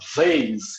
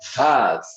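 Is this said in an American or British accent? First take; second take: American; British. First: It is said in an American accent. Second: It is said in a British accent. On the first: "em inglês eles vão falar" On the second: "no britânico"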